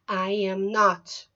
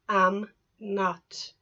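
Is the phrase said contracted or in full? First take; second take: full; contracted. First: Each word is said separately in full. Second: The first two words merge into one short syllable. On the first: "negative form of the verb be" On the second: "contractions, we make it short for speaking"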